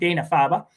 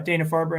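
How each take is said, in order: First: The name is said in a Boston accent. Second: The name is said in a neutral accent.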